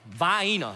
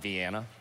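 First: The word has a regional, home-style pronunciation. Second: The word has its standard, expected pronunciation. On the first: This is how the family said it. "That's how we said it" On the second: This is not how the family said it. "Not Vienna"

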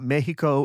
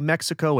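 First: The x is said as a soft h sound. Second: The x is said as a hard ks sound. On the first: "I'll try to hit that soft X" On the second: "I'm gonna say Mexico"

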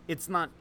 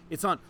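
No difference in how they are said.

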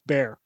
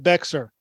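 First: The word is said like bear, no x sound. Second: The word is said with a clear x sound. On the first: The speaker calls it right. "It's Bear" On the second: The speaker calls it wrong. "It's not Bexar"

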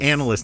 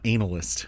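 First: The word is said with its ordinary pronunciation. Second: The first two syllables sound like 'anal'. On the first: The word names a job. The speaker calls it right. "I said analyst" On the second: The word hints at something rude. The speaker calls it wrong. "not analyst"

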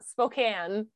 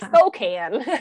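First: The name is said with the local pronunciation. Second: The name is said with a Texan pronunciation. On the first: The speaker calls it right. "It's Spokane" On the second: The speaker calls it wrong. "the way that Jared said Spokane is not right"

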